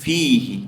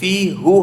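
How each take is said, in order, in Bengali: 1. সর্বনামটি 'i' স্বরধ্বনি দিয়ে শেষ হয়। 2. সর্বনামটি 'u' স্বরধ্বনি দিয়ে শেষ হয়। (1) "কিন্তু এটা হয়ে যাবে কি ফিহি" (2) "ফি হু হওয়ার কথা ছিল"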